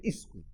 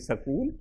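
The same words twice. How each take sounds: First: It is said the way Bihar speakers say it. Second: It is said the way Punjab speakers say it. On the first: This is how people in UP or Bihar say it. "in U P or in uh, in Bihar, they would say school" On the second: This is how people in Punjab say it. "in Punjab, they would say school"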